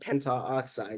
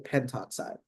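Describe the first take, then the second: First: An extra 'a' vowel is said before 'oxide'. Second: The 'a' vowel is dropped before 'oxide'. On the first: The speaker calls it wrong. "a little like too too much of a mouthful" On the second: The speaker calls it right. "It's smoother"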